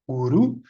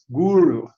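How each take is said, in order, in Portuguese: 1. O R é pronunciado do jeito italiano. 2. O R é pronunciado do jeito inglês. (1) "o correto é guru, o R como italiano" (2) "alguém que fale a língua inglesa lendo guru tende a falar guru"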